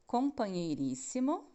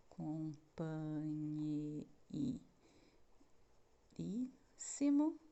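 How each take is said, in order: First: Said in the usual way. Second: "companheiríssimo" split into very slow, soft syllables. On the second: Shown as a demonstration. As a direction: sound out "companheiríssimo" one syllable at a time. ("companheiríssimo" separado em sílabas, bem devagar) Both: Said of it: "separar as sílabas das palavras".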